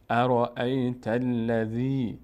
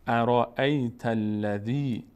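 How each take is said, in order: First: ارأیت الذی again very slow with ذی stretched long; teacher repeats ارأیت الذی for students; slow recitation repeated. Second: ارأیت الذی drawn out slowly, the ی of الذی stretched long; teacher models ارأیت الذی slowly; slow recitation. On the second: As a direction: recite ارأیت الذی at half speed, lengthening ذی. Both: Shown as a demonstration.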